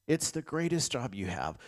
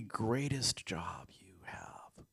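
First: Said in the usual way. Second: Hushed whisper. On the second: Acted. Pastor to the congregation, whispered softly. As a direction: whisper "greatest job you have" slowly and softly.

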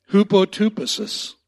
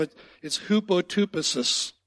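First: Hupotupesis called out louder as hoo-po-too-peh-sis, every syllable given its weight; repeat-after-me pronunciation. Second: Hupotupesis said clearly as hoo-po-too-peh-sis with a falling tune; Greek word pronounced. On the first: Pastor leads the congregation in saying the word together, loud and deliberate. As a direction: lead the room through Hupotupesis syllable by syllable. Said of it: "you just wanna say that with me". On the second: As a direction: pastor teaching the congregation a Greek word, spoken carefully. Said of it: "I'm gonna tell you what it sounds like".

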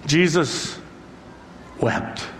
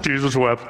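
First: Jesus, a long pause, then wept softly; weighty and slow, with a long pause before the last word; solemn pause between words. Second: Trivia answer. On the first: Real, not acted. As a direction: let Jesus hang before a hushed wept. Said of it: "one of the most profound verses". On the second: Retold or imitated. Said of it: "What's the shortest verse in the Bible?".

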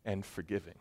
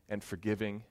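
No difference in how they are said.

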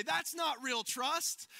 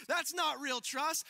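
First: "not" drawn out slow and high, mocking; slow mocking scold. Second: "That's" lifted high and slow, mocking; slow scold, stress on that's. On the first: Scolding a friend who peeks back, slow and mocking. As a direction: drag out "not" like a teasing scold. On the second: Repeating the jab at the nervous faller, slow and teasing. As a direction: lean on "That's" and drag the line. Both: Shown as a demonstration. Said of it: "we laugh at this and we would say".

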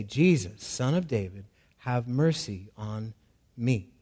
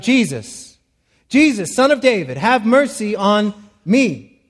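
First: Low, soft, subdued reading of the plea; quiet reading of the cry. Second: Crying out. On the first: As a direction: read the cry softly, almost to himself. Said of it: "he began to cry out". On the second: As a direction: cry out to Jesus, begging loudly. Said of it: "So he cries out". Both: Shown as a demonstration.

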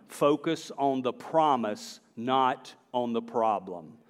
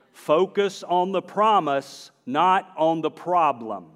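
First: Said in the usual way. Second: "promise" and "problem" hit hard, drawn out slowly; emphatic repeat. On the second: Real, not acted. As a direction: slowly drive home "promise" against "problem". Repeats the point with more emphasis.

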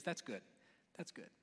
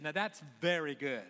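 First: Softer, lower, understated verdict; quiet approval. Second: VERY leaned on, firmly voiced; stress on VERY. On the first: Acted. God looking over each day's creation, quiet approval. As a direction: say it low and softly, almost to yourself. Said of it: "he looked at 'em". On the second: God looking at the sixth day, stress on "very". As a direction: hit the word "very" with satisfied emphasis. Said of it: "and this is very good".

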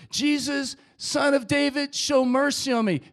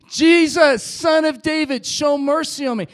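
First: Loud, raised plea for mercy; screaming out. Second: Very loud, high desperate shout; full scream. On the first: Blind beggar pleading past those hushing him, loud cry. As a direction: call out firmly over the crowd. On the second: Blind beggar refusing to be silenced by crowd, all-out scream. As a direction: shout it with everything you have. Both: Acted. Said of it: "screamed out even louder".

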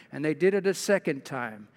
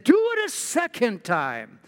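First: Said in the usual way. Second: Raised, emphatic order, read aloud; prophet's command. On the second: Acted. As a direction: command them as Elijah would. Elijah orders them, read aloud.

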